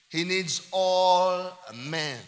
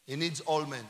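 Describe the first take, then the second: First: "all" held very long and swelling; slow emphatic repeat with a drawn-out "all"; stress on all. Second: Said in the usual way. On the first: Real, not acted. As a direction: stretch out "all", then land on "men".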